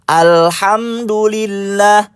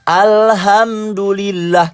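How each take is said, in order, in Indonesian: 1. Bunyi h-nya sempit, h faringal. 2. Bunyi h-nya biasa, h yang ringan. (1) "Haknya kecil" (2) "haknya dibaca besar"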